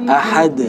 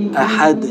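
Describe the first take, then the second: Both takes have the same delivery.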